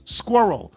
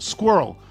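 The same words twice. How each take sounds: First: It is said as two syllables. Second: It is said as one quick syllable.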